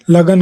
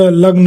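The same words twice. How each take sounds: First: लगन in two beats, la-gan; split consonants. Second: लग्न with g and n fused, lagn; joined consonants. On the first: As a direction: say लगन with a vowel between ग and न. (लगन में ग और न अलग बोलें) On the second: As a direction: say लग्न with no vowel between ग and न. (लग्न में ग और न मिलाकर बोलें) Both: Shown as a demonstration. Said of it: "शब्द का संयुक्त रूप".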